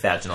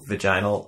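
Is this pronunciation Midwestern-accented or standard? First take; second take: standard; Midwestern. First: It is said with the standard pronunciation. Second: It is said with a Midwestern-accented pronunciation. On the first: The speaker calls it right. "you're right. It's vaginal" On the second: The speaker calls it wrong. "It's my Midwestern accent"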